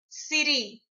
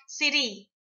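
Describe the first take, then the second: Both takes have the same delivery.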